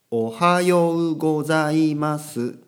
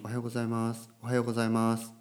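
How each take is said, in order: First: おはようございます very slow and loud, each syllable held; over-clear pronunciation. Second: おはようございます run together softly; a casual, blurred おはようございます, first syllable swallowed; indistinct natural pronunciation. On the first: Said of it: "はっきりしないんですよ". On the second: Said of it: "なんかこう、はっきりしないんですよ". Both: Shown as a demonstration.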